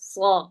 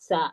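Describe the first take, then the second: First: The sound is heavy, with a deep, full quality. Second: The sound is light, without any heavy quality. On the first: The speaker calls it right. "സ്വാദിന് ഫത്ഹാക്കി നമ്മൾ പറയുമ്പോൾ" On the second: The speaker calls it wrong. "ഘനമായിട്ട് വന്നില്ലെങ്കിൽ ... അത് സീനിന്റെ മഹ്റജാവും"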